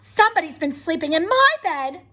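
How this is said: A sweet, low Mama Bear voice.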